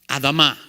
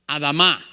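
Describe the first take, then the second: First: It is said with a Hebrew pronunciation. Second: The same.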